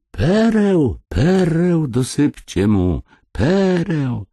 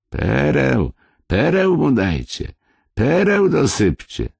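First: Very high, drawn-out ringing cry; swelling, insistent call. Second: High-pitched insistent call; calling after someone. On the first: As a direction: cry it out across the distance, each word falling. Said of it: "a precz wołał". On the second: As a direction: call it out after him, each phrase falling. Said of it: "wołając za nim". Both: Acted.

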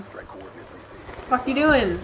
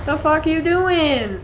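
First: Very slow, stretched incredulous question; drawn-out disbelief. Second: Higher and louder, slowed exasperated question; exasperated yell. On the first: Gamer baffled by teammate's play, slow drawn-out disbelief. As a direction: drag each word out in disbelief. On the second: Gamer yelling at a clueless teammate, exasperated. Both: Real, not acted. Teammate walks past enemy.

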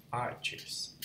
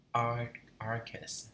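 First: Careful "Arches" with a crisp ch sound; corrected pronunciation. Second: "arc, arches" with a hard k sound for ch; tentative "arches", ch read as k; unsure pronunciation. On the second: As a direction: say "arches" like "ark-es". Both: Shown as a demonstration. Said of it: "Đọc vậy có đúng không ta?".

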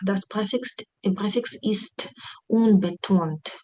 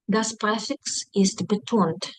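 First: Slow, careful German read, stress on unbetont; slow teaching read. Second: Slow, careful German read for students; slow teaching read. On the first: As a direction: lay it out slowly for the class. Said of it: "Префікс не наголошений". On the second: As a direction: spell it out slowly for the class. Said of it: "Наголос падає на префікс". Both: Shown as a demonstration. (повільно, по-вчительськи)

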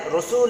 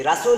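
First: রসুল with rounded o, "Ro-sul"; correct pronunciation. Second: রাসূল with open a, "Ra-sul"; rejected variant. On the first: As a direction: say "Ro" to open রসুল. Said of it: "বাংলায় রসুল লিখেছি". (শুদ্ধ উচ্চারণে "রোসুল") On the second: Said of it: "রাসূল লিখিনি". (আ-কার দিয়ে "রাসূল") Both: Shown as a demonstration.

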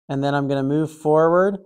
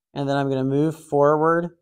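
No difference in how they are said.

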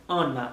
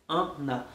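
First: Said in the usual way. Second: "Anna" broken as "an... na"; split nasal syllables. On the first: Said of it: "Pa egzanp, Anna". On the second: Shown as a demonstration. Teacher breaking down an example, split nasal syllables. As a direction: split "Anna" after its nasal first vowel, softly. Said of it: "se A, epi N ki vin apre".

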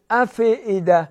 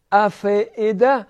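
First: افئده said loosely, the way people get it wrong; wrong form. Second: افئده with a crisp still ف and sharp hamza. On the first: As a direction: show the common mistake on افئده. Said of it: "این صحیح نیست". (تلفظ نادرست افئده) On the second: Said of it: "خیلی تیز اف". (فای ساکن و همزهٔ تیز در افئده) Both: Shown as a demonstration.

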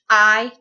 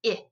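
First: I as long "eye", as in ripe. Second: I as short "ih", as in rip. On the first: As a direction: say I as a full "eye" vowel. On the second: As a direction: say I as a brief "ih" sound. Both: Shown as a demonstration. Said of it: "a long sound to a short sound".

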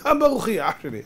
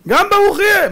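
First: Resigned shrug. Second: High, loud exclamation; helpless outcry. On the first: Isaac telling his son nothing can be done, resigned. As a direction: let it drop off, nothing to be done. Acted resigned repeat to Esau. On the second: Isaac telling Esau the blessing must stand, loud and helpless. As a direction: throw it out loudly, voice shooting up. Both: Acted.

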